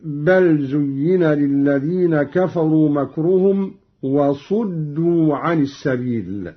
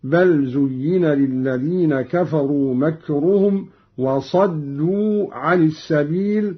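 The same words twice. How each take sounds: First: وصدوا with a u on the sad, wasuddu; reference reading. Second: وصدوا with an a on the sad, wasaddu; fatha on sad. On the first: Reciter giving the verse before the variant, damma in وصدوا. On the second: Reciter showing Qalun's active verb, fatha in وصدوا. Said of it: "قرأ قالون بفتح الصاد". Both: Shown as a demonstration.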